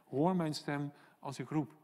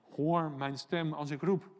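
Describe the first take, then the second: First: Said in the usual way. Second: Slow, with roep drawn out on a rising tune; stress on roep. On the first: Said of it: "Hè, roep". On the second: Shown as a demonstration. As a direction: lean on roep like a real cry. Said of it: "Hè, roep, niet zozeer als ik wat fluister".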